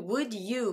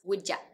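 First: The word 'you' is said in full. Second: The word 'you' is reduced to 'ya'.

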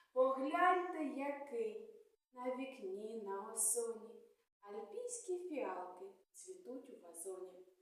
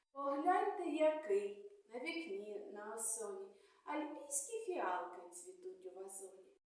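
No difference in how they are said.

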